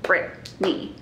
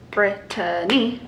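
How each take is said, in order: First: The name is said with two syllables. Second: The name is said with three syllables. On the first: "it could just be two syllables" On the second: "it's three syllables"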